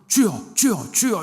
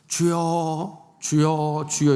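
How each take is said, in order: First: The three calls are said quickly. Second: The three calls are said slowly.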